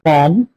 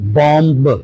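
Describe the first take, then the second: First: The final B sound is silent. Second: The final B sound is pronounced. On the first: The speaker calls it right. "B will be silent" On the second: The speaker calls it wrong.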